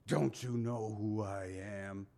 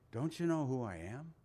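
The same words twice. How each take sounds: First: The question sounds haughty and full of attitude. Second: The question sounds gentle and inviting. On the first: The speaker demands respect for his importance. "I could just see this attitude" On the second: The speaker invites the listener to come closer. "And Jesus says it in a way"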